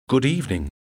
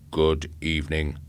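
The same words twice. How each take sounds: First: Higher, uneasy greeting; nervous man greeting a robot; nervous reply. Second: Low, even robot greeting; calm, mechanical robot. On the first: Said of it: "He was trembling". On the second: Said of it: "it said calmly". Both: A narrator's reading.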